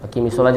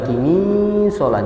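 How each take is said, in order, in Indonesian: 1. Vokal pertama diucapkan pendek. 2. Vokal pertama dibaca panjang.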